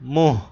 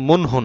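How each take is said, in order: First: The n is dropped and the vowel is nasalized. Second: A full n sound is pronounced in the word. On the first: The speaker calls it right. "নুনটা উচ্চারণ হবে না কিন্তু নাকে যাবে গুন্না" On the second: The speaker calls it wrong. "এটা কিন্তু মুনহু না"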